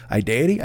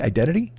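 First: "Identity" as eye-DAY-uh-tee, questioning; mispronounced identity. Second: Said in the usual way. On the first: Shown as a demonstration. Host checking his own slip, "Identity" said eye-DAY-uh-tee. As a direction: drop the n from "Identity", rhyme it with deity. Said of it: "it popped into my head". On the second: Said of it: "I don't know".

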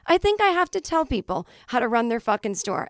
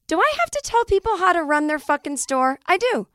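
First: Said in the usual way. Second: Exasperated. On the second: Acted. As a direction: rant it high and fed up. Exasperated rant.

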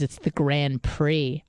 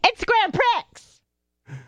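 First: "Prix" said as "pree", no X, slow and patient; "Grand Prix" ending in a plain "pree"; correct French pronunciation. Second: "Prix" said as "pricks" with the X, very slow and high; arguing with coworker, hammering "Prix" as "pricks"; wrong pronunciation. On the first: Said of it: "He goes". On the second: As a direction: stretch out "Grand Prix" sounding the final X, insisting. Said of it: "there's a fucking X at the end of that". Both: Retold or imitated.

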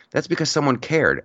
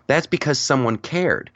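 First: "because" hit hardest, not "cared"; stress on because. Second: "cared" hit hardest, falling at the end; stress on cared. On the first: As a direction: lean on "because", let "cared" fall away. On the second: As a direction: land the weight on "cared". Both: Shown as a demonstration.

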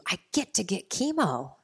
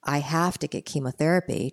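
First: Higher, lilting grateful "I get to"; lifted, eager reframing; glad inner dialogue. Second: Said in the usual way. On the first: Retold or imitated. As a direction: say it as a welcome privilege, stress on GET. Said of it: "switched my inner dialogue". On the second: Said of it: "switched my inner dialogue from".

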